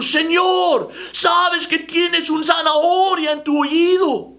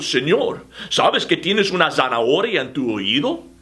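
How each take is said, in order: First: It is almost shouted. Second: It is said at normal volume.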